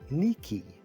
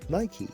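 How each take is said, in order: First: The name is pronounced the Greek way. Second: The name is pronounced the Bangla way. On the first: "in its original Greek it's" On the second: "in Bangla they say Nike as"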